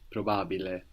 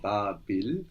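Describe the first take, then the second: First: The word ends with a pronounced final vowel. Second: The word ends without a final vowel.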